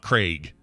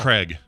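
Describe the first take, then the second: First: The name is said not rhyming with 'keg'. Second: The name is said rhyming with 'keg'. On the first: This is how other people say the name. The speaker calls it wrong. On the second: This is how the name's owner says it. The speaker calls it right. "I pronounce it like K R E G"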